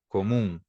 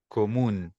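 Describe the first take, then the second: First: It ends in a nasal vowel without a clear n. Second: It ends with the tongue pressed for a clear n. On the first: "em português, a gente vai pronunciar comum" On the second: "Agora, em espanhol"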